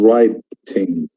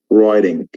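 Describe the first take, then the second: First: It is said in a British accent. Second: It is said in an American accent. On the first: "writing in England" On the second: "but in America it becomes writing"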